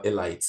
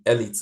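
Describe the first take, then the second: First: Elite, second syllable like "light". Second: Elite, second syllable like "eat"; Elite as ELL-eet. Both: Shown as a demonstration. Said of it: "be sure which way go, which one you go by".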